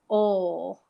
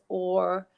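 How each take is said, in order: First: The final r sound is dropped. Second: The final r sound is pronounced strongly. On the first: "Some teachers might say oh because they have a slightly different accent" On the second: "with a strong emphasis on the er sound because I have an Irish accent"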